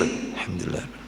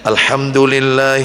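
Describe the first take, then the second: First: It is recited softly in a low voice. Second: It is recited aloud in a raised voice. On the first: "Nanti sir" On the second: "agak dikeraskan"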